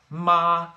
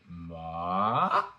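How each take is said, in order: First: The pitch stays high and level. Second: The pitch rises quickly from low to high. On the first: "higher than you think" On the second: "That is the second tone"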